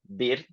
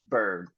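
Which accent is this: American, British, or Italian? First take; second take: Italian; American. First: It is said with an Italian-style pronunciation. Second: It is said with an American accent. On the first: "the most common pronunciation for Italian students would be bird" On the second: "with an American accent, then it would become bird"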